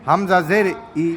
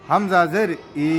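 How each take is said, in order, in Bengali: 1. শেষ স্বরটি ছোট, ছোট করে বলা। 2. শেষ স্বরটি লম্বা করে টানা। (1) "ছোট ছোট করে উচ্চারণ করবা" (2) "এই যে লম্বা করে"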